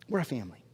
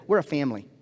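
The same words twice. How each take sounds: First: We're a family said again much softer, hushed and close; softer repeat. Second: Said in the usual way. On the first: Real, not acted. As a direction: bring it down to a soft, intimate repeat.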